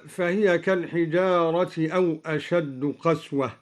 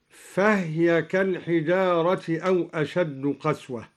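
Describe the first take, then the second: First: Said in the usual way. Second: فهي said "fahya", no vowel on the h; vowelless ha. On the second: Shown as a demonstration. Teacher demonstrating al-Duri's reading, فهي as "fahya" with silent-vowel h. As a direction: close the h in فهي straight onto the y. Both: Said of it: "قرأ الدوري بإسكان الهاء".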